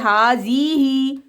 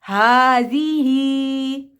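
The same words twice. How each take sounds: First: The marked vowels are kept short. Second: The marked vowels are held long. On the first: The speaker calls it wrong. "So wrong है" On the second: The speaker calls it right. "हमने इसको लॉन्ग करना है और इसको लॉन्ग करना है"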